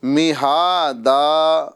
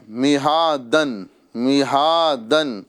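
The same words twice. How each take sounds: First: مہادا slowly, ending in a long open aa; drawn-out مہادا as at a pause; stopping with alif. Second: مہادن slowly, closing on a clear n; drawn-out مہادن, tanween sounded; tanween ending. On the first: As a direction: recite مہادا with both long vowels held, no final n. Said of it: "ہمیں مہادا کرنا ہے". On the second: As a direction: recite مہادن with long haa and final -dan. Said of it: "دو زبر والی تنوین ہے". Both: Shown as a demonstration.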